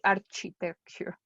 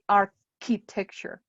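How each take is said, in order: First: The ch is pronounced as in church. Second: The ch is pronounced as a k sound. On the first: The speaker calls it wrong. "You don't say" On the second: The speaker calls it right. "the C H is a K"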